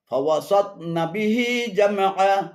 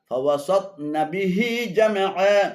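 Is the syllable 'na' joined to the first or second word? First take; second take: second; second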